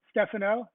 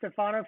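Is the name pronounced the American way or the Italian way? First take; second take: Italian; American. First: The name is said with an Italian pronunciation. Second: The name is said with an American pronunciation. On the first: This is how the name's owner says it. The speaker calls it right. "He goes, Stefano" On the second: This is how Americans say the name. The speaker calls it wrong. "I was saying Stefano for that longest time"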